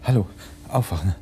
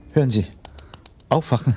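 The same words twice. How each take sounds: First: Said in the usual way. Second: Louder urgent call. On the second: Acted. Waking a fainted woman.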